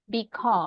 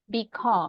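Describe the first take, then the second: First: The stress is on the second syllable. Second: The same.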